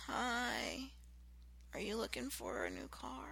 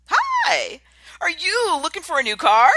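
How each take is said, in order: First: Soft, limp sales greeting; bored quiet salesman; low-energy greeting. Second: Much higher, loud and bright greeting; eager salesman at full energy; energetic greeting. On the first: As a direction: greet them like you couldn't care less. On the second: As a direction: greet them like you're thrilled they came. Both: Shown as a demonstration. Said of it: "It's totally different".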